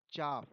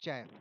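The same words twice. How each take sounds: First: "chaff" with a long open ah, like "chahf"; British-style broad "ah" in "chaff"; long-a pronunciation. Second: "chaff" with a short front a, like "cat"; American-style flat "a" vowel in "chaff"; short-a pronunciation. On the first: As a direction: say "chaff" with the broad vowel of "father". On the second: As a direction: say "chaff" to rhyme with "gaff". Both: Shown as a demonstration. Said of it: "Both pronunciation are chaff and chaff".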